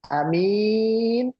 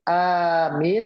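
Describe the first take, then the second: First: The first vowel is short, the second long. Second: The first vowel is long, the second short. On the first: It means a trustworthy person. "yang panjang minnya, a-nya pendek" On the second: It means the one who gives security. "a-nya panjang"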